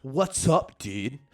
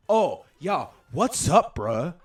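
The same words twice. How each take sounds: First: Loud, exaggerated American dude voice; hammed-up American bro greeting; mock American accent. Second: Very loud, high, exaggerated American bro; hammed-up imitation of a fake American accent; mock American accent. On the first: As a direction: impersonate an Irishman faking an American accent. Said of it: "I can do an American accent better". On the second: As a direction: show off an overdone American bro voice. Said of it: "I can do an American accent".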